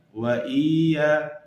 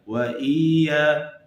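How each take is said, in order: First: The double y is pressed weakly. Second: The double y is pressed weakly.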